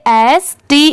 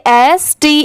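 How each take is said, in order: The two takes are said the same way.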